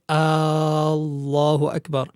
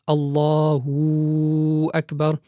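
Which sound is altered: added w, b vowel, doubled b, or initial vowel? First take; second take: initial vowel; added w. First: The opening vowel of Allah is stretched long. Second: An extra w sound joins the two words. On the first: "one should not extend the hamza of al-jalala" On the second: "increase the wow, the wow sakina"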